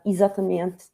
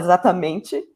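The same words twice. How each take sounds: First: It is said in a European Portuguese accent. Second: It is said in a Brazilian Portuguese accent. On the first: The speaker is adapting to fit in with others. The speaker calls it wrong. "Pô, não falo assim" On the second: The speaker is talking in their own natural way. The speaker calls it right. "Eu posso falar exatamente, e é a mesma palavra"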